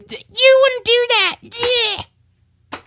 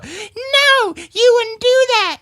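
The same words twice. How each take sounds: First: High falsetto whimper, slow; whining puppet. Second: Squeaky high-pitched puppet chatter, slow and drawn out. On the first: Hand puppet whimpering to dad not to tell mother. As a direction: beg in a crying puppet voice. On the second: Hand puppet greeting Dan in a squeaky falsetto. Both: Acted.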